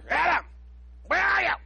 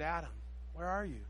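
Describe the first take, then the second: First: The voice is stern and accusing. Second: The voice is soft and sorrowful. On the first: He is confronting a suspect. The speaker calls it wrong. "like the voice of an arresting officer" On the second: He grieves over someone he loves. The speaker calls it right. "He was probably heartbroken"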